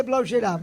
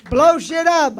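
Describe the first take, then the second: First: Said in the usual way. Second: The tagline punched out, a bit louder; host trying the tagline on the crowd, said louder; louder take of the tagline. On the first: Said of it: "go ahead and say". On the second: Shown as a demonstration. Host repeats heckler's tagline louder. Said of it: "I don't even know what that means".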